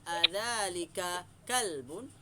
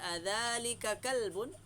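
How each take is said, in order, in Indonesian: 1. Suku kata 'ka' dibaca panjang. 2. Suku kata 'ka' dibaca pendek. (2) "itu macam baca Quran"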